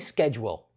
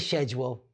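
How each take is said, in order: First: The word begins with an 'sk' sound. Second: The word begins with an 'sh' sound. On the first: The speaker calls it right. "Say schedule" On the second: The speaker calls it wrong. "don't say schedule"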